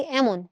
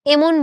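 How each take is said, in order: First: এমন as "æmon", starting on wide "æ"; open "ae" vowel. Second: এমন as "emon", starting on pure "e"; the rejected এমন, first vowel kept close. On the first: Teacher giving the spoken form, এমন with open "æ". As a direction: open the first sound of এমন. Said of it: "বলতেছি এমন". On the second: Teacher contrasting for students, এমন with close "e". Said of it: "এমন বলতেছি না". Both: Shown as a demonstration.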